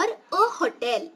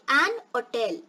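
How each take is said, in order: First: "a hotel" with the H sounded after a short "a"; stressed first syllable. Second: "an hotel" as an-oh-TEL, H silent; unstressed first syllable. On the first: Teacher giving learners the other form, H pronounced. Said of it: "if you stress the first syllable". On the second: Teacher summing up the two forms, H dropped. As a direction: link "an hotel" with no H. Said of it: "Here I'm not stressing that". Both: Shown as a demonstration.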